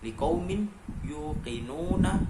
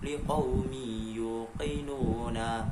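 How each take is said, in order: First: The n sound is clearly pronounced on its own. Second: The n sound merges into the following consonant. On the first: The speaker calls it wrong. "Yang awalnya liqaumin yuqinuna" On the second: The speaker calls it right. "harus dibaca menjadi liqaumi yuqinuna"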